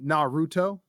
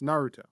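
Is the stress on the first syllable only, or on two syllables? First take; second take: two syllables; first only. First: Both the first and second syllables are stressed. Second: Only the first syllable is stressed. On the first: The speaker calls it wrong. "you're putting emphasis on both the na and the R" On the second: The speaker calls it right. "emphasis on the na"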